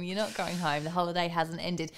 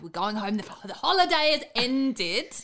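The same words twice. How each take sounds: First: Lower, softer, deadpan rebuttal; dry lower retort. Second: Mock parental threat. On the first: Real, not acted. Friend flatly rebutting the mum's empty threat, lower and deadpan. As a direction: undercut the threat flatly, dropping low. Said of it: "as if you're going home". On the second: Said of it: "how you just throw out a threat".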